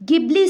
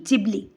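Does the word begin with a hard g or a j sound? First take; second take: hard g; j. First: It begins with a hard g sound. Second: It begins with a j sound.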